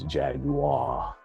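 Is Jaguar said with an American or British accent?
British. It is said with a British pronunciation. "that's the across the pond kind of thing"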